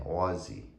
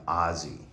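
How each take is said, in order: First: "Aussie" with a rounded AW vowel, AW-zee; Australian-style Aussie. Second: "Aussie" said like Ozzy, open AH vowel; Ozzy pronunciation. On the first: Owner shows the proper name, "Aussie" as AW-zee. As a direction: say "Aussie" as AW-zee, not like Ozzy. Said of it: "we should be saying Aussie". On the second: Owner explains the dog's name, "Aussie" said like Ozzy. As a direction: say "Aussie" as AH-zee, the American way. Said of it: "'cause we pronounce it O Z Z Y". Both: Shown as a demonstration.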